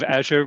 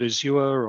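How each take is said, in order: First: The word is said in an American-style way. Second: The word is said in a non-American way. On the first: This is the speaker's own habitual version. "the American pronunciation ... my own weird version of it" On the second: This is how the listener might say it. "you might call it Azure"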